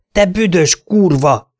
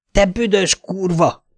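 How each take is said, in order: First: Lassú, magasabb, hangosabb ordítás; dühösen, lassan kiabálva. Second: Lassú, magasabb hangú ordítás; lassan, dühösen kiabálva. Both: A narrator's reading. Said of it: "ordítottam". (lassan, magasan ordítva)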